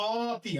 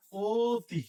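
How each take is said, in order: First: অতি begun with a long open ɔ, ɔ-ti; wrong open vowel. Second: অতি said as o-ti, with a closed o; closed o sound. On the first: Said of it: "আমরা কি অতি বলি". (অতি-র শুরুতে খোলা অ) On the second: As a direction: round the first vowel of অতি into a long o. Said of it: "আমরা বলি". (অতি-র অ শোনাবে ও-এর মতো) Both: Shown as a demonstration.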